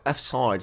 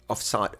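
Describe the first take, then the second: First: Imitated Scottish accent; light mock Scottish accent on the vowels. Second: Said in the usual way. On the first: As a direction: say it like a Scottish referee. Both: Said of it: "she says in her Scottish accent".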